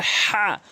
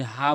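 First: "হা" forced from the middle of the throat; strong pharyngeal h in "হা". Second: "হা" as a light, ordinary h; wrong h. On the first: Teacher demonstrating to learners, throaty "হা". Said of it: "হলকের মাঝখান থেকে উচ্চারণ করবেন". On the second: Teacher warning of the mistake, plain light "হা". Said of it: "ভুল উচ্চারণ হবে". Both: Shown as a demonstration.

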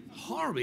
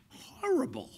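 First: Said in the usual way. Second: Breathless whispered horrible; whispered horror. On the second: Retold or imitated. Actor whispering his reaction to a script.

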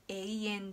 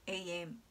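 First: Slow "永遠" with a distinct i after e; clear "ei". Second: "永遠" as ee-en, long e with no i; everyday pronunciation. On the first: Teacher giving example words, slow "永遠" with the "ei" sounded. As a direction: read "永遠" slowly as e-i-en. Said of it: "えいっていう音が入る". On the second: Teacher demonstrating natural speech, "永遠" as ee-en. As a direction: say "永遠" casually, stretching e in place of ei. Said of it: "いつも話している通りに". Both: Shown as a demonstration.

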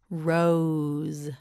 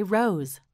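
First: "Rose" drawn out long and level; stretched model word. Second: Said in the usual way. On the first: Shown as a demonstration. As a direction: stretch "Rose" through every sound. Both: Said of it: "Say rose".

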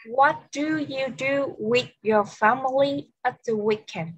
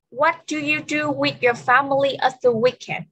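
First: Slower, word-by-word teacher question; slow repeat. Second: Said in the usual way. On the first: Shown as a demonstration. Teacher repeating the question for an English learner, slowly and word by word. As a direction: space the words out for a language learner.

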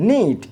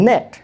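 First: নিট with long "ee", as in neat; long E word. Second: নেট with short "eh"; short E word. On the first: Teacher contrasting with net, long-vowel নিট. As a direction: say নিট as "neet", a silent. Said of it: "long সাউন্ডসগুলো খেয়াল করুন". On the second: Teacher contrasting with neat, short-vowel নেট. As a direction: say নেট as English "net". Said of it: "short sound হচ্ছে এ". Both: Shown as a demonstration.

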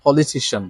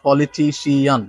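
First: Politician as po-li-TI-shun; correct pronunciation. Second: Politician drawn out as po-li-ti-si-AN; wrong pronunciation. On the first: Teacher corrects the long form, correct pronunciation. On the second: Teacher warns against this form, wrong pronunciation. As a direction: sound "si-an" at the end of politician. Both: Shown as a demonstration. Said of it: "not politician".

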